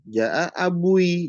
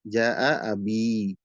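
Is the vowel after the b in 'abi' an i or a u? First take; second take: u; i. First: The word ends with a heavier u-i vowel sequence. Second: The word ends with a light i vowel. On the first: It is hard to pronounce. The speaker calls it wrong. "Kalau dibaca dengan dhammah berat itu" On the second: It is easy to pronounce. The speaker calls it right. "kalau dibaca dengan kasroh dia ringan"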